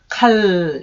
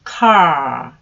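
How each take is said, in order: First: The word ends with an L sound, tongue touching. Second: The word ends with a long curled-tongue R sound. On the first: The speaker calls it wrong. "칼 이 소리가 아니고 혀가 입천장에 닿으면 안 돼요" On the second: The speaker calls it right. "R 하고 혀를 구부려서 소리를 길게 내주시면 돼요"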